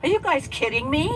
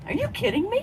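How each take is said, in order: First: Higher, louder incredulous cry; mock disbelief. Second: Much higher, loud squeal of disbelief; friend's catchphrase, squealed in loud disbelief; mock disbelief. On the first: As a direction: imitate her shocked at the wild books. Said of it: "She'd say". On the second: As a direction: push her catchphrase up to a squeal. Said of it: "you know that expression".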